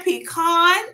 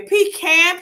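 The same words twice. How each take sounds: First: "pecan" said as pee-KAHN, raised and drawn out; pronounced pee-KAHN. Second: "pecan" said as pee-CAN, raised and drawn out; pronounced pee-CAN. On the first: Showing the different ways to say it, pee-KAHN. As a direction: say "pecan" with an open "kahn" ending. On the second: Showing the different ways to say it, pee-CAN. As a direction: say "pecan" with the flat vowel of can. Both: Shown as a demonstration. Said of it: "different words to say that".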